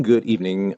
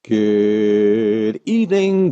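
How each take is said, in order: First: Said in the usual way. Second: A slow, lingering welcome; drawn-out greeting. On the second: Acted. Host opens the stream with a very slow greeting. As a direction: stretch good evening out very slowly.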